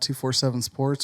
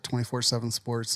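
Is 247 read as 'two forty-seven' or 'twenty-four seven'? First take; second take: two forty-seven; twenty-four seven. First: The number is read as two forty-seven. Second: The number is read as twenty-four seven.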